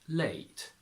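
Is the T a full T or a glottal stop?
full T. The T is fully pronounced.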